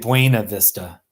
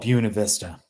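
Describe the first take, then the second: First: The name is pronounced following its spelling. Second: The name is pronounced the local way. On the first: This is how an outsider would read it. "the phonetics of the the way it's spelled, you'd say Buena Vista" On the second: This is how locals say it. "If you're a real local, you call it Buena Vista"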